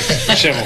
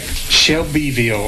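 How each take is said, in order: First: The name is squeezed into two syllables, like shovel. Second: All syllables of the name are clearly pronounced. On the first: The local way of saying it. "everyone from here leaves the B off" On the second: The careful pronunciation an outsider would use. "She's like"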